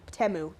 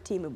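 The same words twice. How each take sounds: First: Temu as TEM-oo, short e; alternative pronunciation of Temu. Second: Temu as TEE-moo, long ee; first pronunciation of Temu. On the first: Co-host corrects the name, trying Temu as TEM-oo. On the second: Co-host unsure of the name, trying Temu as TEE-moo. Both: Shown as a demonstration. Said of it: "whatever it's called".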